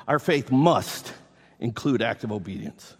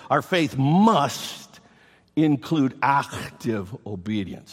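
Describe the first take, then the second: First: Said in the usual way. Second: "must" drawn out slowly and hit hard; slow, weighty stress on "must"; emphatic stress. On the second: Shown as a demonstration. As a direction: lean long on "must", then land "active" firmly. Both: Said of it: "exclamation point at the end of this point".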